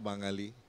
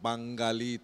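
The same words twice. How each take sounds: First: It is said in standard pronunciation without stress. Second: It is said with a regional pronunciation and stress. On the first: The speaker calls it right. "চাপ দেওয়া যাবে না" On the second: The speaker calls it wrong. "বাঙালি তো বলা যাবে না"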